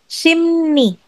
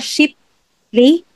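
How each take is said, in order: First: The middle sounds are m followed by n. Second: The middle sounds are p followed by r. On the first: The speaker calls it right. "but it will be shimni" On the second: The speaker calls it wrong. "hindi siya shipri"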